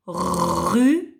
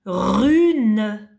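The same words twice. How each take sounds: First: Said in the usual way. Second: Na said loud and clear; dictation. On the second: Shown as a demonstration. Teacher dictating a syllable to the child, loud and clear. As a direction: pronounce Na for dictation. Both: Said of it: "tu écris".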